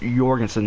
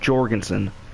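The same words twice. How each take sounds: First: The name begins with a Y sound. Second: The name begins with a J sound. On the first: The speaker calls it right. "it's Jorgensen with like a Y pronunciation" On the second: The speaker calls it wrong. "not Jorgensen, like with a J"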